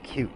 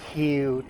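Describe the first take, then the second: First: The word is said short and clipped. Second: The word is stretched out long.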